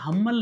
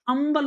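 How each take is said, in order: First: The word begins with an h sound. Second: The word begins with a vowel sound. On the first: The speaker calls it wrong. "हम्बल नहीं बोला जाता" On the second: The speaker calls it right. "अंबल बोला जाता है"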